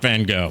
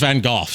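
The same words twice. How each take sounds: First: Gogh is said the usual American way. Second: Gogh is said in a non-American way. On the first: The speaker calls it wrong. "not Van Gogh. ... pronouncing it wrong your whole life if you lived in America" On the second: The speaker calls it right. "it's pronounced Van Gogh"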